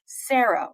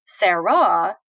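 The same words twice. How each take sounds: First: "Sarah" as SAIR-uh, first syllable stressed; "Sarah" said the everyday SAIR-uh way. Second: "Sarah" as sa-RAH, stressed on the last syllable; "Sarah" said sair-RAH, end stressed; different stress. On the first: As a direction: lean on the start of "Sarah", ending light. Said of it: "we're stressing the". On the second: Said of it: "say things differently". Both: Shown as a demonstration.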